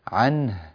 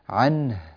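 No difference in how they are said.

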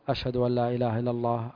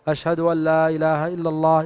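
First: The phrase is said in a low, quiet voice. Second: The phrase is said in a raised, loud voice. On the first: "بصوت منخفض" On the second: "ثم يرجع ويرفع صوته ويقول"

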